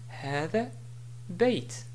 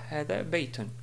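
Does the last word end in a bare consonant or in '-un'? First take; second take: bare consonant; -un. First: The last word ends on a bare final 't'. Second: The last word ends with a final '-un' sound. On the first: The speaker calls it right. "si je voulais m'arrêter sur بيت, je dis" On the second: The speaker calls it wrong. "et non pas"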